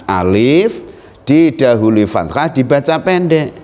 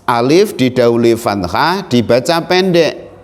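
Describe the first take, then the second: Both takes have the same delivery.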